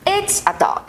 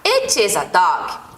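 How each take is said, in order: First: It is joined into one contracted word. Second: It is said as two separate full words. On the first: "Pode vir contraído" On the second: "forma afirmativa"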